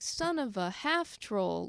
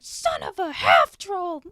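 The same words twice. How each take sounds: First: It is said softly with little force. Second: It is shouted with strong, angry force. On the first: The character's anger feels diminished. The speaker calls it wrong. "it's more like" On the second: The character is releasing real anger. The speaker calls it right. "she starts swinging her axe around in anger, going"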